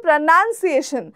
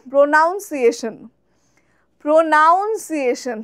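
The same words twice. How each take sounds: First: প্রনাউন্সিয়েশন said as "pronunciation", no "nown" vowel; শুদ্ধ উচ্চারণে প্রনাউন্সিয়েশন; correct pronunciation. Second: প্রনাউন্সিয়েশন said "pronaunsiation" with the "nown" vowel; ভুল উচ্চারণে প্রনাউন্সিয়েশন; common mispronunciation. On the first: Shown as a demonstration. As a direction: say প্রনাউন্সিয়েশন the proper English way. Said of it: "যেমন আমি বলছি". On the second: Retold or imitated. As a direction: imitate the common slow "pronaunsiation" slip. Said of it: "maximum লোকে বলে".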